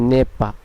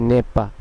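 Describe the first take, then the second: The two takes are said the same way.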